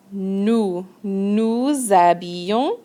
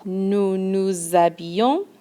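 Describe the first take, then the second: First: Nous nous habillons said slowly with a z sound linking nous to habillons; nouZ-abillons, slow and linked; liaison shown. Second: Nous nous habillons with the z link, a little quicker; nouZ-abillons, linked; liaison again. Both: Shown as a demonstration. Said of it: "Another liaison".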